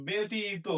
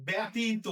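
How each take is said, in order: First: ব্যতীত as "betito"; closed e vowel. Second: ব্যতীত wrongly opened to "byatito"; common mispronunciation. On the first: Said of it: "তাহলে এটা আমরা কি বলবো". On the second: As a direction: say ব্যতীত with an open æ first vowel. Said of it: "আমরা অনেকে ভুল করে বলি". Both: Shown as a demonstration.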